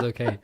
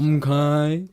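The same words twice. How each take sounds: First: Said in the usual way. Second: High, loud, drawn-out "m'kay"; cartoon catchphrase accent, rising at the end; Mister Mackey. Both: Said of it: "Not with the accent".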